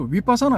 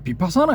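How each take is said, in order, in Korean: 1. 이 단어는 'w' 소리로 시작해요. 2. 이 단어는 'b' 소리로 시작해요. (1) "위로 읽어서 윗바사나 해도 된다고" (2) "이걸 비로 읽어도 되고"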